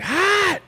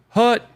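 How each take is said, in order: First: The vowel is open and deep, like 'hot'. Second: The vowel is short and central, like 'hut'. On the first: The speaker calls it right. "It's like hot" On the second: The speaker calls it wrong. "people just want to say like hut"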